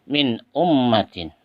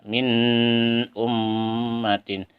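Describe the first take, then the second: First: The n sound is short and clear. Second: The n sound carries a long nasal hum. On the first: The speaker calls it right. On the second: The speaker calls it wrong.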